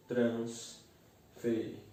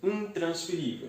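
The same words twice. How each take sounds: First: INTRANSFERÍVEL slowly split, in-trans-fe-rí-vel; syllable by syllable. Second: Said in the usual way. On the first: Shown as a demonstration. Teacher separating the word for students, INTRANSFERÍVEL in slow separate syllables. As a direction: say INTRANSFERÍVEL with a pause between syllables. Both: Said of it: "eu separo".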